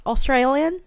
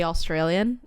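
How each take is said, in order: First: Australian said higher with an Australian twang; Australian, rising, in an exaggerated Australian accent; mock Australian accent. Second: Said in the usual way. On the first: Shown as a demonstration. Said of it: "Australian accent". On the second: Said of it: "whenever you say Australian".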